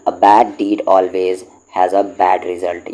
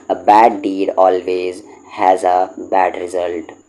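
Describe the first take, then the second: First: Said in the usual way. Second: Slow dictation. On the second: Shown as a demonstration. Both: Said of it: "याद कर लें इन सबको".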